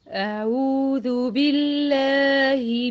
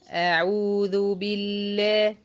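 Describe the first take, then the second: First: It is said in an altered, put-on voice. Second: It is said in her ordinary speaking voice. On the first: The speaker calls it wrong. "غيرت صوتي وتفاعل ويعني وجبت صوت غير صوتي ونبره غير نبرتي" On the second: The speaker calls it right. "نفس الايه التون بتاع صوتي ونفس الصوتي"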